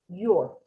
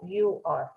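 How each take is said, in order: First: The words are contracted into one syllable. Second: Two separate words are said, you and are. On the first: The speaker calls it right. "pronunciamos lo contraído" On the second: The speaker calls it wrong. "que pronunciaste separado"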